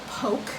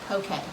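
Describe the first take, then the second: First: The word ends with an 'oke' sound. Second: The word ends with a 'kay' sound. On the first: The speaker calls it wrong. "don't ever call it poke. You will look like a total haole" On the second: The speaker calls it right. "P O K A Y is how you pronounce it"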